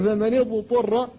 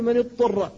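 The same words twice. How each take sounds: First: اضطر with the ض sounded distinctly before the ط; slow, careful فمن اضطر with its own ض; clear dad in اضطر. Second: اضطر with the ض swallowed into the ط; wrong reading of اضطر that merges the two letters; merged dad. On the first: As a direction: keep the ض of اضطر separate, not merged into ط. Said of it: "فتقول فمن اضطر". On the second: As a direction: demonstrate the faulty اضطر, ض assimilated into ط. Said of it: "فيدغمها فيها، وهذا لحن". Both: Shown as a demonstration.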